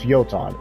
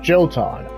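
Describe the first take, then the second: First: The word begins with a Y sound. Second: The word begins with a J sound. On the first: The speaker calls it right. "It is pronounced Yotan" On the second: The speaker calls it wrong. "It's not Jotan"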